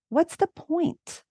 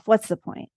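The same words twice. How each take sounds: First: It is said in a curious tone. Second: It is said in an accusing tone.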